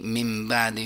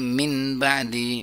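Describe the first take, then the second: First: The n turns into an m sound. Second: The word ends with a clear n sound.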